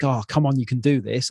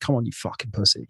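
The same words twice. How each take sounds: First: Light, encouraging pep talk to yourself; the kind coach voice he never used; encouraging self-talk. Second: Softer, muttered put-down of yourself; the gym voice that always talked him down; harsh self-talk. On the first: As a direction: cheer yourself on gently. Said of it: "instead of being like". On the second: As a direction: mutter a contemptuous insult at yourself. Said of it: "talking down, always negative". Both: Retold or imitated.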